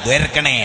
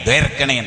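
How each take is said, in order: The two takes are said the same way.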